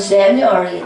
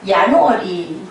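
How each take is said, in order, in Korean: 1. 이 단어는 'j' 소리로 시작해요. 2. 이 단어는 'y' 소리로 시작해요. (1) "일월은 영어로 뭐예요?" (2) "라틴 발음으로는"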